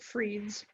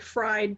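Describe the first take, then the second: First: The vowel sounds like 'ee', as in free. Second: The vowel sounds like 'eye', as in fry. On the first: The speaker calls it right. "I believe they pronounce it Freed's" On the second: The speaker calls it wrong. "It kind of looks like fried to me"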